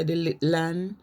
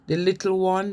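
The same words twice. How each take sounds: First: "little one" squeezed to "lickle 'un"; contracted dialect form. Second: Said in the usual way. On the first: Shown as a demonstration. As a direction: shorten "one" to "an". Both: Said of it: "they say".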